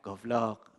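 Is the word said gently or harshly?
gently. The word is said in a light, gentle tone. The listener takes no offense. "tergantung intonasi. Kalau ngomongnya goblok, mesti oke"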